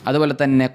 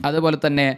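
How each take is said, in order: The two takes are said the same way.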